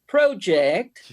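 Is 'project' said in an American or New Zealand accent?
New Zealand. It is said in a New Zealand accent.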